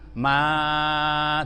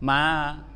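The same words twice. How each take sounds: First: The vowel is held for a longer length. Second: The vowel is held for a shorter length. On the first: "bisa sampai lima harakat" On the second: "Ma itu bisa dua harakat"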